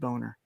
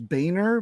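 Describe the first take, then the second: First: The name is said like 'boner'. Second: The name is said the original way. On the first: This is how the speaker's family says it. "I pronounce it Boner" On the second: This is the name's original pronunciation. "the true pronunciation is"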